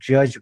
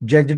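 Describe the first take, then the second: First: No extra d sound is pronounced at the end. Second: An extra d sound is pronounced at the end. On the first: The speaker calls it right. "आपण जज म्हणतो" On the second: The speaker calls it wrong. "नाही म्हणत"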